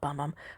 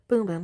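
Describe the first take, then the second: First: The vowel is short, like in 'bum'. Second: The vowel is long, like in 'boom'. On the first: The speaker calls it wrong. "Or not Bum Bum" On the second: The speaker calls it right. "I'm not pronouncing it right"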